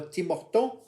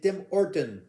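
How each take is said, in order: First: The name is pronounced the French way. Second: The name is pronounced the English way. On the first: The speaker calls it wrong. "On ne dit pas Tim Horton" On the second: The speaker calls it right. "on dit Tim Horton"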